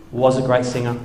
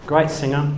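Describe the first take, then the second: First: Was pushed, marking the past; correcting himself with weight on Was; stress on Was. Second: Said in the usual way. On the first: Shown as a demonstration. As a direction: lean on the word Was to correct yourself.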